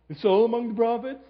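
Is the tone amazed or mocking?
mocking. It is said in a mocking tone.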